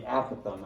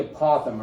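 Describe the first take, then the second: First: "apothem" stressed on the first syllable, AP-o-them. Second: "apothem" stressed on the second syllable, a-POTH-em. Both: Shown as a demonstration. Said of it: "it can be pronounced either way".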